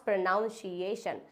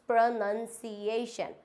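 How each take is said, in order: First: Pronunciation as "pro-noun-see-ay-shun", slowly; slow wrong pronunciation. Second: Pronunciation as "pro-nun-see-ay-shun", very slowly; very slow correct pronunciation. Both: Shown as a demonstration. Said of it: "not pronunciation".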